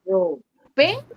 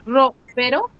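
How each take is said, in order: First: Ropero slowly as ro-PE-ro, PE lifted; stress on PE. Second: Ropero as RO-pero, rising at the end; stress on RO. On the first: Teacher confirms the answer, ropero slowed with stress on PE. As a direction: draw out and raise PE in ropero. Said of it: "En la P". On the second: Teacher challenges the student's answer, RO stressed in ropero. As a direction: wrongly stress RO in ropero, questioning. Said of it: "Tú dices ropero". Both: Shown as a demonstration.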